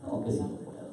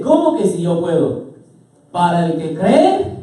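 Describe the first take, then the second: First: Very hushed questioning retort; barely voiced, incredulous question; Jesus's reply. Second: Firm, raised challenge; emphatic preacher's retort; Jesus. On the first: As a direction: ask it almost under the breath. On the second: Acted. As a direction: throw the doubt back, slowing into a rising finish. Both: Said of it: "¿cómo le responde Jesús?".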